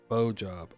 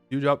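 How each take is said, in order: First: The first word sounds like 'bow'. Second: The first word sounds like 'view'. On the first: The speaker calls it right. "Bow? Oh, I guess that also makes sense" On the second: The speaker calls it wrong. "like beautiful. I'm saying it wrong"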